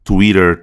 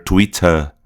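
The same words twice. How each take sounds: First: "Twitter" American, flapped T, sounded R; rhotic American accent. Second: "Twitter" British, crisp T, no R; non-rhotic British accent. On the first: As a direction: end American "Twitter" on a curled R. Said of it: "a roticidade". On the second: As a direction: end British "Twitter" on a weak vowel. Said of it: "vai substituir o R do americano". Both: Shown as a demonstration.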